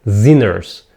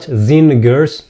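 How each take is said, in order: First: "Sinners" lower, with no g at all; silent g. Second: "singers" with a hard g after the n; wrongly sounded g. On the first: Teacher correcting the bad example, silent g. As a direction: say "Sinners" as zinners, just an n. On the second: Teacher showing what not to say, sounded g. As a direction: mispronounce "singers" slowly, as zin-gers. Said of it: "Not singers". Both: Shown as a demonstration.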